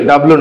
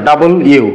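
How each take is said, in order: First: "ডাব্লিউ" run together as "dablu"; wrong W pronunciation. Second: "ডাবল ইউ" as two separate words; correct W pronunciation. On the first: Teacher showing the mistake, "ডাব্লিউ" slurred into "dablu". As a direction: squash "ডাব্লিউ" into two syllables. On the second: Teacher correcting the class, "ডাবল ইউ" carefully split in two. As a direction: split "ডাবল ইউ" into double and you. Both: Shown as a demonstration. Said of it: "ডাব্লিউ না, ডাবল ইউ".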